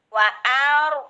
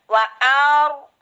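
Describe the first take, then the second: The two takes are said the same way.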